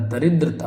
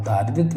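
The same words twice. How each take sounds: First: दरिद्रता with a short first vowel; correct form. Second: दारिद्रता with a long first vowel; wrong form. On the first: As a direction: say दरिद्रता as "da-ridrata". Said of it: "दरिद्रता होगा". (दरिद्रता में "द" छोटा बोलें) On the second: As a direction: say दारिद्रता as "daa-ridrata". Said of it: "दारिद्रता नहीं होता". (दारिद्रता में "दा" लंबा बोलें) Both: Shown as a demonstration.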